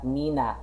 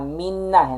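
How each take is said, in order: First: The middle n sound is short. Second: The middle n sound is held long. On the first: The speaker calls it wrong. "not mina" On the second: The speaker calls it right. "may N sa gitna"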